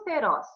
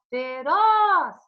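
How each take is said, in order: First: Said in the usual way. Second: "Feroz" with ROZ long, high and loud; teacher demonstrating stress on a drawn-out ROZ in "Feroz"; stressed final syllable. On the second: Shown as a demonstration. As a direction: belt out and stretch the last syllable of "Feroz". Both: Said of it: "qual é a tônica?".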